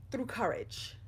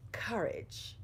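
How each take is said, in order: First: Said in the usual way. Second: Courage said again as a soft whisper; whispered repeat. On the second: Real, not acted. Speaker repeats the key word to viewers, whispered. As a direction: breathe Courage out in a hush.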